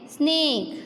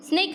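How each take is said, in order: First: स्नेक with the "ay" held long; स्नेक, long drawn-out A; correct long vowel. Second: स्नेक with a quick, short vowel; wrong short vowel. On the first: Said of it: "हम क्या बोलेंगे इसे?". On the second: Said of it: "स्नेक नहीं बोलेंगे". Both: Shown as a demonstration.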